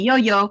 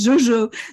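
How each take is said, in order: First: The name is said with a German pronunciation. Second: The name is said with a French pronunciation. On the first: "in Germany, Yo-Yo" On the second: "in French, Jojo"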